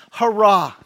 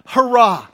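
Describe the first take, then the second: No difference in how they are said.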